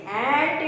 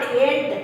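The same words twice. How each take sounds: First: ANT with an open ya-like vowel; ya sound in ant. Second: ANT with a short plain e, like "end"; wrong vowel in ant. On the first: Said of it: "it is ant you have to". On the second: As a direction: say ANT without the ya glide. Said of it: "It is not ant". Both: Shown as a demonstration.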